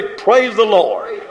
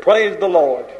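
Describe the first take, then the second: First: Drawn-out, slow "Praise the Lord" as a call for the crowd; preacher calling out to the congregation, slow. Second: Said in the usual way. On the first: Shown as a demonstration. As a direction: stretch out "Praise the Lord" slowly to lead the response. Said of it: "Somebody say". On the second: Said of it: "I'll say it".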